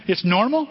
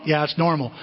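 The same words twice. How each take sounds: First: "It's normal?" rising high in disbelief; mock surprise. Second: Said in the usual way. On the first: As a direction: ask "It's normal?" like a startled listener. Mock congregation doubting.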